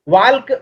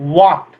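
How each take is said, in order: First: The word is said with an L sound. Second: The word is said without an L sound. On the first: The speaker calls it wrong. "वाल्क गलत है" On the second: The speaker calls it right. "इसको पढ़ते हैं वॉक"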